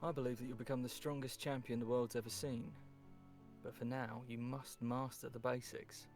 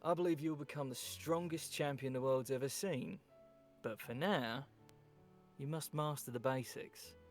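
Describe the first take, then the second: First: There is no pause after 'now'. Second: There is a pause after 'now'.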